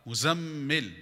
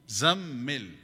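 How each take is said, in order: Both takes have the same delivery.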